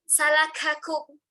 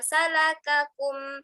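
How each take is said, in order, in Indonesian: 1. Bunyi k membawa embusan napas yang kuat. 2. Bunyi k tegas dengan sedikit embusan napas. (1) "Ada yang membacanya uh" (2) "Cukup membacanya dengan"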